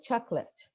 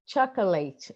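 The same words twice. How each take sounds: First: Chocolate squeezed to two syllables, chok-let; chocolate with schwa, choc-lət; correct native form. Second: Chocolate with every vowel full, ending in -late; mock student Chocolate, all syllables fully voiced; imitating the student. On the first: Shown as a demonstration. Teacher showing students the native chocolate with schwa. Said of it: "not chocolate, but chocolate". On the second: Teacher imitating a Brazilian student saying Chocolate with all vowels full. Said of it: "Don't they actually say it like that?".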